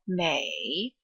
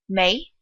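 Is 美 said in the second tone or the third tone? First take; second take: third tone; second tone. First: The syllable is said in the third tone. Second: The syllable is said in the second tone. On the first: "the first third tone" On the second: "turns into a second tone"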